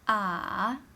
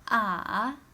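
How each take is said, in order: The two takes are said the same way.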